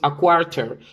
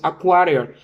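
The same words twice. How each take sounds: First: It is spoken in a British accent. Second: It is spoken in an American accent. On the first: "En Inglaterra y en Londres nosotros decimos" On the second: "En Estados Unidos y en la mayoría de los países decimos"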